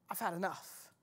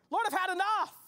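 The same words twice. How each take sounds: First: Weary sigh. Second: Cried out. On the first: Hearer's own weary words echoed. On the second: Same words cried out earlier. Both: Acted.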